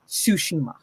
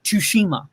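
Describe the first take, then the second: First: No T sound starts the word. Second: A clear T sound starts the word. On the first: The speaker calls it right. "no, it's like it's Tsushima" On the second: The speaker calls it wrong. "he pronounces the T whenever he speaks quickly"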